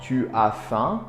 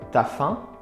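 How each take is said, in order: First: The u of tu is fully pronounced. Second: The u of tu is dropped, contracted.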